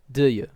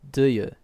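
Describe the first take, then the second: First: The two words blend into one sound. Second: The two words blend into one sound.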